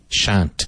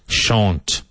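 First: It is said without a southeast England accent. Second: It is said with a southeast England accent.

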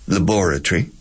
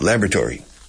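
First: It is said with a British pronunciation. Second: It is said with an American pronunciation. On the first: "The British say laboratory" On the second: "And the Americans are radically different"

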